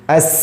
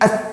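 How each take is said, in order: First: The s has a long, strong flow of breath. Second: The s has only a weak flow of breath. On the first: "ada nafas, mengalir, mengalir" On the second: "itu tidak fasih. Kenapa? Hamasnya kurang"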